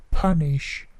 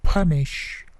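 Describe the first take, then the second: The two takes are said the same way.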